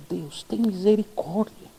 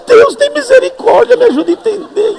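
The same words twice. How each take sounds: First: Much softer, slow murmured plea; hushed prayer. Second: Desperate prayer. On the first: Pastor praying over the troubled woman, much softer and slow. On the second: Pastor pleading with God to understand the English, much higher and louder. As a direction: cry out to God for help. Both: Retold or imitated.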